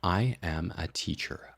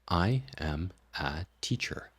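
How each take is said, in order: First: Faster still, slightly choppy between the words. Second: Faster, with the words still somewhat separated. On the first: "speed it up again. It still sounds a little bit awkward" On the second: "you can speed this up"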